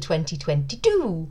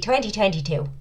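First: It is said in the speaker's usual accent. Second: It is said in an attempted Irish accent.

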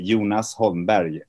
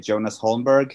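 First: The name is said in a Swedish way. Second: The name is said in an English-style way.

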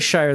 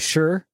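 First: The vowel is a long 'eye' sound, like 'fire'. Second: The vowel is a short 'oo' sound, like 'pure'. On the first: This is how outsiders would say it. "They don't say shire" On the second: This is how locals say it. "they say sure"

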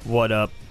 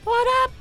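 First: It is said at a normal pitch. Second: It is said at a higher pitch.

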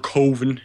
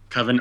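First: The word has a Midwestern pronunciation. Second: The word has a standard, non-Midwestern pronunciation.

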